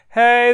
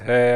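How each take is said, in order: First: It is said high in head voice. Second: It is said low in chest voice.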